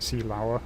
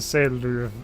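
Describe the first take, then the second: First: It is said with a British pronunciation. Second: It is said with a German pronunciation. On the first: The speaker calls it wrong. "I was pronouncing it Seelauer, which which is British" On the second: The speaker calls it right. "it is uh, Seeluve"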